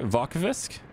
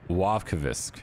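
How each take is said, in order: First: The name begins with a V sound. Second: The name begins with a W sound. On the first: "did I say it right?" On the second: "it might be like a wa"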